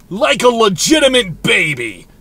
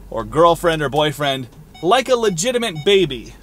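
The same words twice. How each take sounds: First: Put-on "Like a legitimate baby" said louder, leaning on "legitimate"; stress on legitimate baby. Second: Said in the usual way. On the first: Shown as a demonstration. Man repeating his phrase to a partner, louder with "legitimate" stressed. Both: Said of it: "that's just how I said that".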